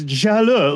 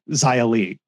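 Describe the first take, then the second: First: The name is said with native Chinese sounds. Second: The name is said with anglicized English sounds. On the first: The speaker calls it right. "It's Jaleu" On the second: The speaker calls it wrong. "sounds better in the native language than Xia-Li"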